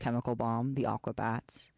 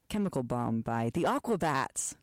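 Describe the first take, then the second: First: It is said in a flat, plain way. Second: It is said with lively, exclaiming energy.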